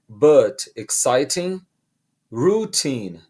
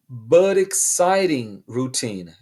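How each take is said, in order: First: The t sounds are said as clear t's. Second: The t sounds are quick r-like taps.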